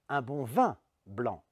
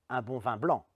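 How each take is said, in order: First: The stress is on the word vin. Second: The stress is on the word blanc. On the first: Wine is wanted and nothing else. "c'est du vin que je veux et pas autre chose" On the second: "c'est du blanc et pas autre chose que je veux"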